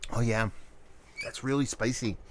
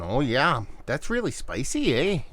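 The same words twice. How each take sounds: First: Said in the usual way. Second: A playful bad Canadian impression; mock Canadian accent. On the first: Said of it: "I sound like Canadian there". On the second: Beer reviewer teasing Canadian friends, mock Canadian accent. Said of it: "horrible impersonation of stereotypes".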